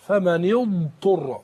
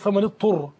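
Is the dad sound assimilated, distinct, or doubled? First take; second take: distinct; assimilated. First: The dad sound is articulated clearly and distinctly. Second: The dad sound merges into the following ta. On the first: The speaker calls it right. "لابد ان احنا نبين صفه الضاد" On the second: The speaker calls it wrong. "اضغم الضاد في الطاء"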